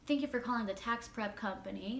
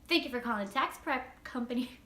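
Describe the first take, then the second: First: It is said in a flat, unsmiling voice. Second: It is said in a smiling, happy voice.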